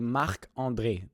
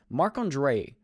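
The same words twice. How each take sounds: First: The name is said with a French accent. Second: The name is said with an English accent. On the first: The speaker calls it right. "in French, we have to say Marc-André. This is the way you say it" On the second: The speaker calls it wrong. "English speakers say Marc-André"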